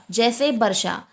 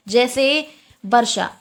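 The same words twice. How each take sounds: First: Said in the usual way. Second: वर्षा said slowly with a clear ष sound, not ख; slow careful example. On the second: Shown as a demonstration. Teacher slowly models वर्षा for the class. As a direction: spell out वर्षा slowly for the students. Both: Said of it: "खा के रूप में नहीं".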